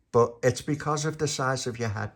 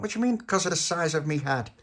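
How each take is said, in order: First: Said in the usual way. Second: Higher-pitched affronted question; offended echo. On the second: Acted. Tony to Little Pappy about his head, offended echo. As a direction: throw it back, put out.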